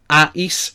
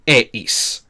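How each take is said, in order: First: Ais said with an open a, as in "eye"; ending ais. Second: Eis said with an e, as in "ace", the s held; ending eis. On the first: Teacher showing the old ais ending before changing it, slow and clear. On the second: Teacher showing the new eis ending to students, slow and drawn out. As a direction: stretch out the eis ending slowly, stressing the e sound. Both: Shown as a demonstration. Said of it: "we change a to e".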